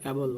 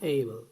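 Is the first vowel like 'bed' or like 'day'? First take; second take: bed; day. First: The first vowel is a short 'e' sound. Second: The first vowel is an 'ay' glide. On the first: The speaker calls it wrong. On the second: The speaker calls it right.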